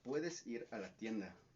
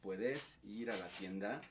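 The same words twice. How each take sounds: First: The stress falls on the usual syllables. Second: The stress falls on unusual syllables.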